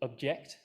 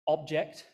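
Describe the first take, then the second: First: The stress is on the second syllable. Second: The stress is on the first syllable. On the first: The word is the verb. "the verb, stress on the second syllable" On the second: The word is the noun. "noun, Stress on the first syllable"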